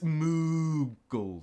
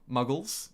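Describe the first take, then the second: First: The first vowel sounds like in 'moo'. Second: The first vowel sounds like in 'mug'. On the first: The speaker calls it right. "It's more of a ooh" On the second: The speaker calls it wrong. "I'm pronouncing it wrong"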